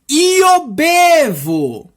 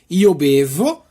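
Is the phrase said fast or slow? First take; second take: slow; fast. First: It is said slowly. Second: It is said quickly. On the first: "Agora vamos tentar de falar devagarzinho" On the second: "rápido para você para dar uma repassada final"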